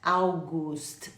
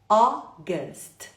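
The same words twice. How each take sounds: First: The first vowel is an 'au' glide. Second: The first vowel is an open 'o'. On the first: The speaker calls it wrong. "Escreve com a U, mas não fala August. August, não" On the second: The speaker calls it right. "Não é au, é O. Como se fosse um O aberto"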